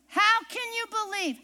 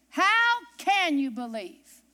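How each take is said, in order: First: Higher repeated question. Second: Slow repeated question. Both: Shown as a demonstration.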